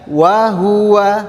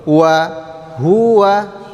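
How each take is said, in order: First: The pitch does not start low then rise. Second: The pitch starts low, rises, then falls. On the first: It sounds like a different word. The speaker calls it wrong. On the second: The word 'and' stays distinct from 'he'. The speaker calls it right. "Rendah dulu, naik, baru turun"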